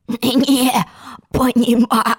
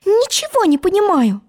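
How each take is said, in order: First: Drawn-out rasping croak; hoarse frog. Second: Put-on high, clear girl's voice; puzzled Alice. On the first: Acted. Frog echoing Alice's words, hoarse drawn-out croak. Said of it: "хрипел лягушатище". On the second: Alice to the croaking frog, high baffled voice. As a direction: say it pitched far up, baffled. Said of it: "сказала она".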